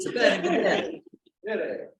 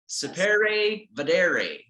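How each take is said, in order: First: It is said with an Italian accent. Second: It is said with an English accent. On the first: "you got to do it with the, Itali- the Italian accent" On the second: "is how we would say it in English"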